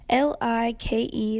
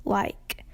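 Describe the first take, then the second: First: Said in the usual way. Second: LIKE said the Eastern Kentucky way; Eastern Kentucky pronunciation. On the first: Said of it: "L I K E is pronounced". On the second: Shown as a demonstration. Comparing Tampa with Eastern Kentuckians, like in Kentucky pronunciation. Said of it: "Eastern Kentuckians who commonly pronounce it as".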